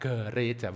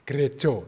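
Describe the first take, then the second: First: The last vowel sounds like 'a'. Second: The last vowel sounds like 'o'. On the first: It is read the Indonesian way. The speaker calls it wrong. "Bukan gereja" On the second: It is read the Javanese way. The speaker calls it right. "bacanya gerejo"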